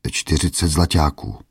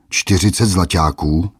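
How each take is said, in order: First: Put-on a touch of timid old man; timid answer. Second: Mocking squeal. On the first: Old merchant meekly names his price to a bully. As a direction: answer meekly, barely daring. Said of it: "odvětil bázlivě". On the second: Bully mocks the old merchant's price, squealing. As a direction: squeal "Čtyřicet zlaťáků?" in mock outrage. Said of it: "vypískl hromotluk".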